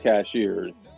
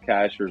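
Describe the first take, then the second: First: The name sounds like 'cashiers'. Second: The name sounds like 'cashers'. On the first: The speaker is not from around here. The speaker calls it wrong. "Do not say cashiers" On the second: The speaker is a local. The speaker calls it right. "what we call the plateau, like Cashers"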